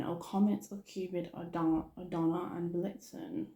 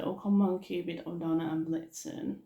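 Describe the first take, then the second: First: Said in the usual way. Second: Lightly imitated happy calling; happy imitation. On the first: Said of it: "that wasn't very happy as well". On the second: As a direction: attempt someone's happy roll-call. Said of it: "he sort of did that a bit happy".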